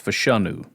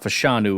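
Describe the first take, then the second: First: The middle vowel sounds like 'uh'. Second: The middle vowel sounds like 'eye'. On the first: The speaker calls it right. "it's Fashanu" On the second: The speaker calls it wrong. "It's not Fashanu"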